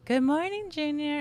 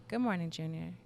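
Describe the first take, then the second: First: Much higher and louder good morning, Junior; high bright greeting. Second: Good morning, Junior said low and softer; low calm man's voice. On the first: Mother showing the voice it was not, high and bright. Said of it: "It wasn't like that". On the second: Mother imitating the man's voice she heard, low. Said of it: "It was". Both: Shown as a demonstration.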